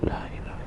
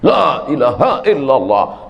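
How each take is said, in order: First: It is said softly and slowly. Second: It is said loudly and forcefully.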